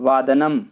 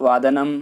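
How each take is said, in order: The two takes are said the same way.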